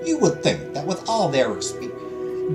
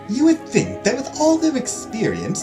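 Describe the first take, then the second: First: It is spoken in a Southern American-sounding accent. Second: It is spoken in a posh British accent. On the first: "trying to do a posh Australian accent just turns into a southern accent" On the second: "British accent it is"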